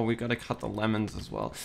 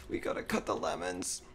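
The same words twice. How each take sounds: First: Said in the usual way. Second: Soft, high little voice; hushed self-reminder. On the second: Real, not acted. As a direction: repeat it to yourself, small and high. Repeats the task to self, softly.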